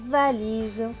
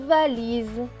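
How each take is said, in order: No difference in how they are said.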